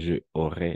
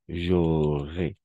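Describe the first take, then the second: First: It is said as two separate words. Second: It is said as one joined word. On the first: The speaker calls it wrong. "y no, je aurais, no" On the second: The speaker calls it right. "Todo de una. J'aurais, como una sola palabra"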